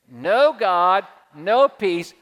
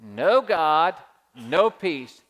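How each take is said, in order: First: The second part is said with attitude. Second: The second part is said plainly, without attitude.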